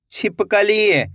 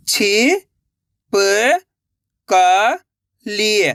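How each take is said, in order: First: Said in the usual way. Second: छिपकली stretched over several seconds, syllable by syllable; very slow sounding out. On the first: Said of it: "तो मिलके बन जाएगा". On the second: Shown as a demonstration. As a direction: pull छिपकली apart slowly. (बहुत धीरे खींचकर छिपकली)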